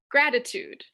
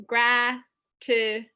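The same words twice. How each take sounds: First: Said in the usual way. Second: "Gratitude" said slowly, syllable by syllable, louder; teacher modelling syllables; syllables split. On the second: Shown as a demonstration. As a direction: break "Gratitude" into its three beats. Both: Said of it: "We can divide this into three syllables".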